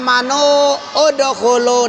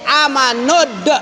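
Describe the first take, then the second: First: The words are split with a separate vowel. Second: The words run together with no vowel break. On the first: The speaker calls it wrong. "Nggak boleh kamu baca" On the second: The speaker calls it right. "Jadi amanud"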